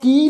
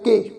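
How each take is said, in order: First: The word ends in a long 'ee' vowel. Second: The word ends in an 'ay' vowel. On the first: The speaker calls it wrong. "इनू की नहीं उच्चारण करना" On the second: The speaker calls it right. "इहदा उच्चारण होएगा के"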